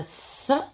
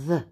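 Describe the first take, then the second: First: TH as a short puff without voice; unvoiced TH. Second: TH with a buzz of voice; voiced TH. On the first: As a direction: breathe TH out, as in mouth. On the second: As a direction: hum TH, as in weather. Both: Shown as a demonstration. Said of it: "Clothes makes the th".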